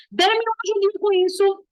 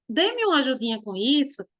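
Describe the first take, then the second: First: "Dê-me uma ajudinha com isso" pitched higher, as an order; teacher showing the command intonation; bossy command. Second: Teacher showing the request intonation; polite request. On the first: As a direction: demand the help. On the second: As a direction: ask for help gently. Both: Shown as a demonstration. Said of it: "a forma que a gente vai entonar".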